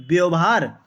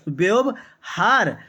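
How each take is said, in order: First: Said in the usual way. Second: व्यवहार said very slowly in two parts, व्यव - हार; word broken in parts. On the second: Shown as a demonstration. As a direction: split व्यवहार with a pause before हार. Teacher splits example word in parts.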